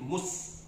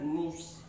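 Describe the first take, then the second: First: The s sound is thin and light. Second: The s sound is thick and heavy. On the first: The speaker calls it right. "tapi mus" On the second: The speaker calls it wrong. "jangan tebal ya"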